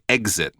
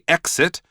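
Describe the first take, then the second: First: The first syllable has a voiced 'gz' sound. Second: The first syllable has a sharp 'ks' sound. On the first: "more like eggs" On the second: "like I say it, with a bit more of an X kind of sound at the beginning"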